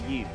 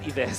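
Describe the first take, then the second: First: The name rhymes with 'give', with a short vowel. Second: The name rhymes with 'hives', with a long vowel. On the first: This is the correct way to say the name. "the right pronunciation is actually Yiv" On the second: This is how Filipinos say the name. "Filipinos pronounce it as Ives"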